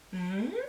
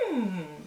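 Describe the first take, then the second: First: The pitch of the hum goes up. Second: The pitch of the hum goes down. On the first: Something said sounds interesting. "someone said something quite interesting" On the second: The listener agrees with what was said. "go down with a, mm, as though some, you agree"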